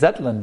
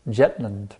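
First: The name begins with a Z sound. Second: The name begins with a J sound. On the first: This is the name's actual pronunciation. The speaker calls it right. "But it is Zetland, actually, with a Z" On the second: This is how a Bengali speaker said it. The speaker calls it wrong. "they don't say the Z sound, so Prabhupada pronounced Jetland"

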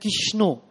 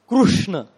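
First: The r is dropped and it ends in o. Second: The name keeps the r and ends in a. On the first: "Bengali devotees chant Kishno" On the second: "Maharashtrian devotees chant Krishna"

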